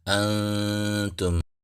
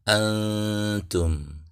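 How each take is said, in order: First: The nasal is a soft blurred n sound. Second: The same.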